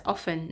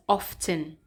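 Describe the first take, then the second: First: "often" as OFF-en, the T dropped; silent T in often. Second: "often" as OFF-ten, a clear T; sounded T in often. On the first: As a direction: say "often" with no T sound. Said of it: "the T here is silent". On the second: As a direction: say "often" with the T pronounced. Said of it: "not often". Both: Shown as a demonstration.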